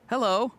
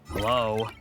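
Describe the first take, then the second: First: It is said in a happy tone. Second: It is said in a frustrated tone.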